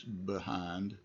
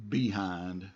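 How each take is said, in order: First: Behind with a soft schwa, buh-hind; the easier way, reduced vowel; preferred pronunciation. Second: Behind said as bee-hind, clear long E first; variant pronunciation. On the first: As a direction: say behind as buh-hind, quick light first syllable. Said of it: "but in this case". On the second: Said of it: "sometimes you'll hear people say". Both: Shown as a demonstration.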